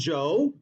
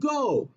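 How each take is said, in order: First: The word begins with a soft j sound. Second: The word begins with a hard g sound. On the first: The speaker calls it wrong. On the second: The speaker calls it right.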